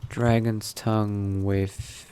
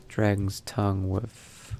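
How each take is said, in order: Both takes have the same delivery.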